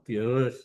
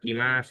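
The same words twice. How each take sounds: First: It sounds muffled and distorted. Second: It sounds clear and loud.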